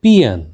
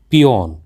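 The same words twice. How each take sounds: First: पियन said as "PEE-un"; correct pronunciation. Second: पियोन said as "pee-YON"; common mispronunciation. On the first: Teacher gives learners the correct word, carefully pronounced. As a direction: say पियन with a weak second vowel. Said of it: "इसका सही उच्चारण है". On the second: Teacher shows learners the common mistake, mispronounced. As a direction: say पियोन with a full o in the second syllable. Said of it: "इसका गलत उच्चारण". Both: Shown as a demonstration.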